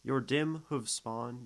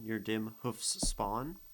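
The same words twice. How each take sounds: First: Hoof said with a voiced v at the end; slow reading with hoof voiced as hoov; hooves with v. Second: Hoofs ending in an unvoiced f and s; slow reading with hoofs ending in hissing fs. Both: Shown as a demonstration. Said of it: "hoofs versus hooves".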